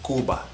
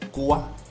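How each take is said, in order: First: The b sound between the vowels is pronounced. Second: The b sound between the vowels is dropped. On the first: "You'll never meet a Cuban from Cuba" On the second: "I don't pronounce the V or B sound at all when it's in between those vowels"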